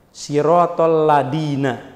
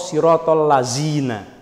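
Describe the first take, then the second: First: The last word has a plain d sound. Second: The last word has a z sound. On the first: "apa biasanya kelirunya?" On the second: "Kan keliru itu"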